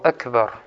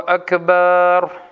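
First: The second vowel is said short. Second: The second vowel is drawn out long. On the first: The word means greatest. The speaker calls it right. "Коротко. Так оно является правильным" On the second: The word means drums made of sheepskin. The speaker calls it wrong. "некоторые люди говорят вот так... Это неправильно"

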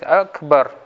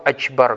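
First: The word has a k sound before b. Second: The word has a ch sound before b. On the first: The speaker calls it right. "К" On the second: The speaker calls it wrong. "Или искажает. ... Не к, че"

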